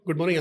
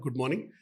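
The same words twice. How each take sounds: First: It is said quickly, in a rush. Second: It is said calmly and warmly, unhurried.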